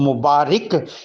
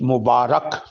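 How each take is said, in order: First: The last syllable is said with an i vowel. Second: The last syllable is said with an a vowel. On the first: The speaker calls it wrong. "इसको मुबारिक ईद मुबारक कहना गलत है" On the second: The speaker calls it right. "बल्कि असल लफ्ज़ है ईद मुबारक"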